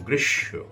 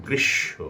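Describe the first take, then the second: Both takes have the same delivery.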